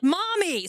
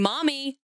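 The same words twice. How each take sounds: First: The voice sounds panicked and loud. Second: The voice sounds calm and quiet.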